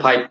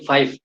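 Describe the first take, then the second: First: The word begins with a p sound. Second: The word begins with an f sound. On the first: It is the habit from the native language. The speaker calls it wrong. "do you pronounce p- pi or five? Yeah, yeah, pipe" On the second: It is the consciously corrected form. The speaker calls it right. "consciously, I will, uh, for me, I will uh, say five"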